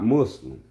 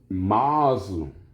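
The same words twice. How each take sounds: First: The first vowel sounds like the vowel in 'muss'. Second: The first vowel sounds like the vowel in 'moss'. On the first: It names a different, everyday term. The speaker calls it wrong. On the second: It names the term meant in this context. The speaker calls it right.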